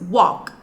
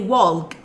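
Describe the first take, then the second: First: The L sound is silent in the word. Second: The L sound is pronounced in the word. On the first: The speaker calls it right. "in walk L has no sound" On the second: The speaker calls it wrong. "don't say walk"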